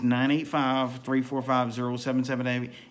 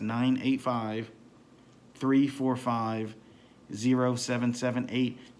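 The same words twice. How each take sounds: First: The number is said at a fast pace. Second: The number is said at a slow pace.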